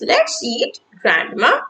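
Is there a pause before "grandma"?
yes. There is a pause before "grandma".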